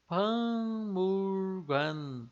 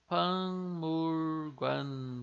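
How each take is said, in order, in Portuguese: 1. A primeira sílaba termina com um som nasal de ng. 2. A primeira sílaba termina com um som nasal de ng.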